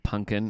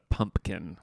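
First: The M and P sounds are dropped. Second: The M and P sounds are clearly pronounced. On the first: The speaker calls it wrong. "making fun of me for saying pumpkin" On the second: The speaker calls it right. "I said the M and the P"

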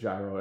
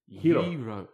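First: The word is said the American way. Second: The word is said the Greek way. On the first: "But we're in the U.S. and it's gyro" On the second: "The proper Greek pronunciation is Hiro"

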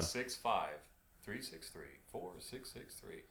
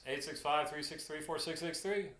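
First: The number is said slowly. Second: The number is said fast.

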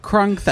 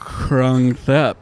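First: It is said at normal speed. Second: It is said slowly.

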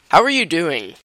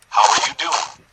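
First: It is said in a clear, normal voice. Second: It is said in a distorted robot voice.

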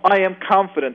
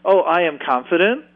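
First: It sounds firm and assertive. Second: It sounds unsure, like a question.

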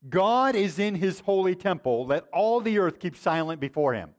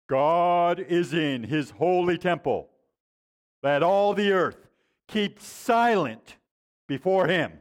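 First: It is said in a plain, ordinary way. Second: It is said in a solemn, commanding way. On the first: "he would say this" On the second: "Except for he didn't say it like that. He said it like this"

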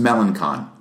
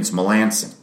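First: The consonant before the last syllable sounds like k. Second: The consonant before the last syllable sounds like s. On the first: This is the reading suggested by the spelling. "How would you pronounce it?" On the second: This is how the name's owner says it. "according to him"

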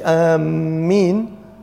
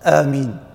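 First: The m sound is doubled and held longer. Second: The m sound is short and single. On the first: It means seeking out or heading toward something. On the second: It asks for a prayer to be answered.

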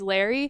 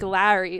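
First: It is said with a Midwest accent. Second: It is said with a Long Island accent. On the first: The speaker's own way of saying it. "ew, you sound so Midwest" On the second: The parents' way of saying it. "they say like Larry"

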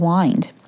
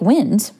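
First: The vowel is long, as in 'wine'. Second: The vowel is short, as in 'win'. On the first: To circle or wrap something up. "just change our pronunciation, right? ... And it becomes wind" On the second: Moving air, or the breath. "we could take wind"

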